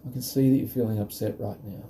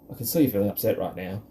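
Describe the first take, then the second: First: It is said in a warm, empathetic tone. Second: It is said in a cold, unsympathetic tone. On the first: It creates a space for the child and shows empathy. The speaker calls it right. "it's expressing the empathy" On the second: It does not help the child. The speaker calls it wrong. "Really is not going to help anyone"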